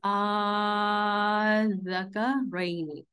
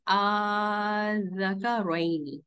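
First: आ held four counts before ज़का रोइनी; four-count recitation. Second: आ stretched three counts before ज़का रोइनी; three-count recitation. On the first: Teacher recites the four-count example for students, stretched. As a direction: stretch the opening vowel a little longer. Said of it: "four counts". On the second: Teacher recites the three-count example for students, stretched. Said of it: "three counts पढ़ते हैं". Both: Shown as a demonstration.

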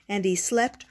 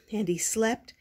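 Both takes have the same delivery.

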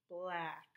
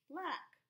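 First: Said in the usual way. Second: Bright reveal. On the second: Shown as a demonstration. Teacher to pupils, high cheerful reveal of the word. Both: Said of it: "C K says k".

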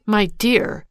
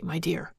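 First: Thrown back higher and louder, bitter; mock his endearment with a bitter exclaim; a scornful repeat of my dear; bitter exclamation. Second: Said in the usual way. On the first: A narrator's reading. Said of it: "she exclaimed bitterly". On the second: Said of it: "My dear!" she exclaimed bitterly".

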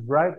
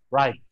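First: "right" with a B-like onset, "brait"; wrong "right". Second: "right" starting cleanly on R; correct "right". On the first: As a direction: put a lip sound before "right". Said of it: "No, bukan right". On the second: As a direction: drop the W entirely in "right". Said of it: "W-nya hilangkan sekalian". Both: Shown as a demonstration.

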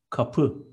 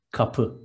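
First: Said in the usual way. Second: Kapı said as two short syllables, ka-PI, with the second one pressed; Kapı with a clear push on the final PI; stress on the second syllable. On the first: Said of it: "stress is on the second". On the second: Shown as a demonstration. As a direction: tap out Kapı short-short, landing on PI. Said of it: "Two short syllables and stress is on the second".

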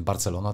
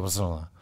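First: Said in the usual way. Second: Barcelona mumbled with the middle syllable swallowed; slurred slip. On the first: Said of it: "nie powiem wyraźnie Barcelona". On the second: Shown as a demonstration. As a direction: run the syllables of Barcelona together as a small slip. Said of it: "nie powiem wyraźnie Barcelona, tylko". (Barcelona niewyraźnie, połknięta sylaba)

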